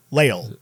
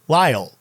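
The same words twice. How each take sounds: First: "Lyle" said like LAY-ul; trying another pronunciation. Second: "Lyle" said like LIE-ul; trying a pronunciation. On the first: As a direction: say "Lyle" with an ay vowel, low and falling. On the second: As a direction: say "Lyle" with a long eye vowel, falling. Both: Shown as a demonstration.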